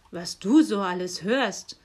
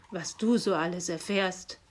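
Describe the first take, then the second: First: Grumbling. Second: Growling. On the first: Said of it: "brummte der Nikolaus". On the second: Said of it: "knurrte der Nikolaus". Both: A narrator's reading.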